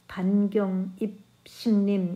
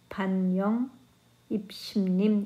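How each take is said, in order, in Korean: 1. 두 번째 음절은 g 소리로 시작해요. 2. 두 번째 음절은 y 소리로 시작해요. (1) "이렇게 읽지 않고" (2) "이렇게 읽고"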